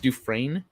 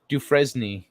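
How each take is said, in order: First: Dufresne said as "doo-FRAIN", rising; correct pronunciation. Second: Dufresne said as "doo-FREZ-nee"; mispronunciation. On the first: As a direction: silent S in Dufresne, lifted like a question. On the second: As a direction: sound out the S in Dufresne, ending in "nee". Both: Shown as a demonstration. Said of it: "It's pronounced".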